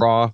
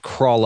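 First: The word ends without any L sound. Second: The word ends with a clear L sound. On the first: "Some people say craw" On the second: "I say crawl"

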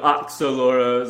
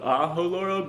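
First: The middle consonant is said like ks. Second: The middle consonant is said like an h. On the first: "I'm expecting a lot of Oxoloros out there too" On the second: "the X is like H"

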